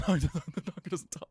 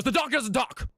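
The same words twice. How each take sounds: First: Slower, laugh-filled punchline; laughing repeat. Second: High-pitched, hurried protest; alarmed farmer. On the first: Real, not acted. Joke teller repeating his punchline to listeners, laughing. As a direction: repeat it slowly through laughter. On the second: Acted. Farmer cutting off the ventriloquist about his donkey, high alarmed blurt. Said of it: "And the guy goes".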